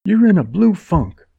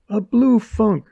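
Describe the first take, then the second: First: High, loud contempt; scornful. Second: "blue" pushed high and scornful; sneer on blue. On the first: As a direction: sneer it at him. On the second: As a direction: lean on "blue" with contempt. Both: A narrator's reading. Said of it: "Her upper lip curled".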